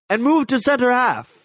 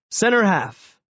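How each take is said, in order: First: A lightly voiced coach, higher, giving an order; hint of the coach calling a position change; coach's order. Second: Said in the usual way. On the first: A narrator's reading. Coach sends player to center half, lightly voiced order. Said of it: "Coach Landek shouted". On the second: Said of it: "expanding my answer in English".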